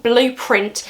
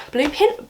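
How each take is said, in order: First: "Blueprint" with the r in print sounded, falling; "Blueprint" put right, every sound in place; corrected pronunciation. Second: "Blueprint" slipping to "Bluepin", higher and questioning; "Blueprint" fumbled as a questioning "Bluepin"; mispronounced slip. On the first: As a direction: say "Blueprint" firmly, with a full "print". Corrects the fumbled title. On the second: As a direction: say "Blueprint" without its r, like "Bluepin", unsure. Stumbles on title, then corrects it. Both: Real, not acted.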